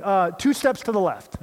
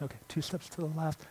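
First: Calling out higher and louder, mock partner yelling; retold yell. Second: Much softer, repeating it under the breath; muttered repeat. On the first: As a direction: shout the direction across the gym, half-acted. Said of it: "My partner's yelling". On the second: Retold or imitated. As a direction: mumble the instruction back to yourself. Blindfolded kid repeating instructions.

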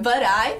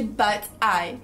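First: BUT I like a single word "burai"; tapped T in BUT I; fused American form. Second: BUT I with a clear T; unlinked BUT, then I; careful hard T in BUT I; separated form. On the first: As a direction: run BUT straight into I. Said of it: "soava como uma outra palavra". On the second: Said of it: "completamente diferente de but I". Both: Shown as a demonstration.

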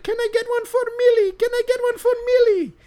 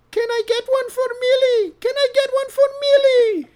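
First: Put-on very high, loud squeaky old lady. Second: Put-on very high, loud squeaky old lady; shrill-high granny pleading for an autograph. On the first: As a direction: squeak it out like an eager granny. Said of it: "And she's like". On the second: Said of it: "if you don't mind if I try this voice".

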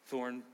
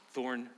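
Both takes have the same delivery.

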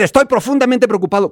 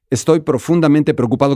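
First: Pitched high, emphatic exclamation; high, histrionic exclaimed delivery; exclamation intonation. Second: Said in the usual way. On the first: Shown as a demonstration. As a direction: read it with exclamation marks, voice raised in pitch. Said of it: "Cuando te enojas". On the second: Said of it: "No es lo mismo decir".

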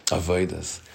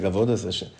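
First: Avodas said softly as "a-VOY-das"; soft avodas with an OY in the middle. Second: Said in the usual way. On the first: Retold or imitated. Teacher musing on a singer's word, avodas as "a-VOY-das". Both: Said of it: "no one ever spoke like that".

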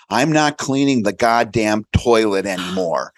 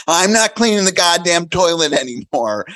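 First: Said in the usual way. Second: Put-on higher, louder kid voice; child's voice. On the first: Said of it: "And I said". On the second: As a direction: parrot it like a cheeky kid. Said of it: "And he said".

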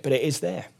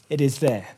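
First: Said in the usual way. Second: Quiet, firm "is" in "It is there"; stress on is. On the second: Shown as a demonstration. Preacher insisting to listeners, quiet stress on "is". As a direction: lean softly on "is" to insist.

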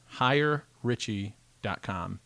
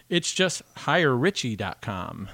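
First: Even slower, deliberate repeat of the address. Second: Slow, each word of the address laid out; slow spelled-out address. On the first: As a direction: repeat it slowly so it sticks. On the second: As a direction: read the web address slowly for listeners. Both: Shown as a demonstration. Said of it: "I'll give you the address".

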